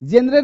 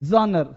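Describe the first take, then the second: First: It is said as 'jenre' with an 'e' vowel. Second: It is said as 'jonr' with an open first vowel. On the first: The speaker calls it wrong. "जेनरे नहीं" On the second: The speaker calls it right. "ऐसे बोलना हमको"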